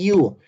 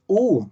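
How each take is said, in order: First: It begins with a y-glide before the vowel. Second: It is a plain vowel with no glide. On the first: The speaker calls it right. "Ahí hay una semivocal" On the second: The speaker calls it wrong. "no es U"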